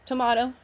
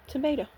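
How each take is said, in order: First: "Tomato" with a long AH vowel; "Tomato" rhyming with "legato"; British-style tomato. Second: "tomato" with a long AY vowel; "tomato" rhyming with "potato"; American-style tomato. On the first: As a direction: say "Tomato" as tuh-MAH-toh. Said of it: "I say tomato". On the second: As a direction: say "tomato" as tuh-MAY-toh. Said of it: "you say tomato". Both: Shown as a demonstration.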